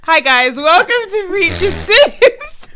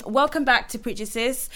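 First: Loud, high, drawn-out welcome; big slow high-pitched podcast opener; put-on show greeting. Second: Said in the usual way. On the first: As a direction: overdo the host's hello, stretching it out. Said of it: "I was trying to do something". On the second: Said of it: "but it didn't really work".

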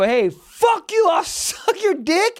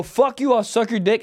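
First: High, drawn-out angry comeback; reenacted high-pitched outburst; road-rage yell. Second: Lightly heated replay of an insult; understated road-rage retort; milder retold comeback. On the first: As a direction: yell a comeback at another driver, slowly. Retelling his road-rage comeback. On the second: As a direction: toss off the angry comeback in recap. Recaps the same road-rage comeback.

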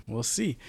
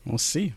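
First: Quiet echo. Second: Said in the usual way. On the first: Shown as a demonstration. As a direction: say it again under your breath.

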